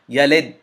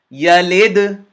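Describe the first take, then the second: First: The final consonant stops abruptly without release. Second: The final consonant releases with a slight echo. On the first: The speaker calls it wrong. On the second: The speaker calls it right.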